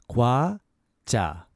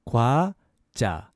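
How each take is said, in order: No difference in how they are said.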